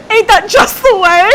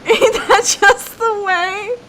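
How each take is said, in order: First: High, loud, laughing outburst; cracking up. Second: High, slow, drawn-out delivery; mock catchphrase voice. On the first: Real, not acted. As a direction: squeal the catchphrase through laughter. Laughing fit over a quoted catchphrase. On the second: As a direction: stretch it out in a high put-on voice. Repeats catchphrase after long laughing fit.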